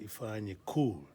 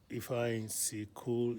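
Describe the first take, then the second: First: No separate syllable comes before 'cool'. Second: A separate 'see' syllable comes before 'cool'. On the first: The speaker calls it right. "the C is for the amplifying of the care, the cool" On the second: The speaker calls it wrong. "don't say if I ain't see cool"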